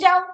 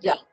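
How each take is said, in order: First: It is shouted in an angry tone. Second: It is said in a calm, neutral tone. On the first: The person is ordered to get out. "চিৎকার করে বলছে" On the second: Permission is being given. "তার মানে সেটা অনুমতি"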